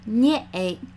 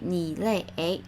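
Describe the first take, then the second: First: A shortened form is said in two syllables. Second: The full form is said in three syllables. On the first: The speaker calls it right. "We actually say nie eight" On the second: The speaker calls it wrong. "we actually don't say ni lei eight"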